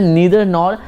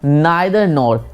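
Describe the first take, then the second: First: Neither begins with an 'ee' vowel sound. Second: Neither begins with an 'eye' vowel sound.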